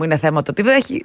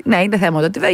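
First: Said in the usual way. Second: Insistent "είναι θέμα", lilting up on "βρέχει"; emphatic comeback. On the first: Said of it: "Θα μου πεις, κυρία μου". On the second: Acted. Host answers an imagined listener's objection about rain, emphatic comeback. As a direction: lean hard on "είναι θέμα το ότι βρέχει", voice rising.

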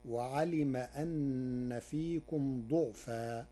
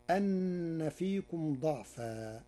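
First: ضعفا with a u on the dad, duʕfa, slowly; Warsh damma reading. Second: ضعفا with an open a on the dad, daʕfa, slowly; fatha reading. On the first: Teacher shows the Warsh reading of ضعفا with a damma. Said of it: "فتصير". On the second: Teacher recites ضعفا with a fatha on the dad. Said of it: "قرأ ورش كلمة ضعفا". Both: Shown as a demonstration.

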